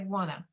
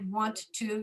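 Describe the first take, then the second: First: It is reduced and run together into one word. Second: It is said as two separate full words. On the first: The speaker calls it right. "you say wanna" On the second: The speaker calls it wrong. "We don't say want to"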